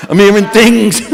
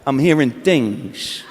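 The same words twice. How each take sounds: First: Louder, punchier De Niro line; a bolder take on the De Niro mumble; De Niro again. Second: Low, slow, soft mobster mumble; a quiet, menacing De Niro murmur; Robert De Niro. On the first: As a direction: hit it harder, stress on things. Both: Pretend. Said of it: "I turn into Robert De Niro".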